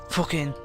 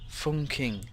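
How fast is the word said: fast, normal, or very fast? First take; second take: very fast; normal. First: The word is said very quickly, blurring sounds. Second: The word is said at a normal speed.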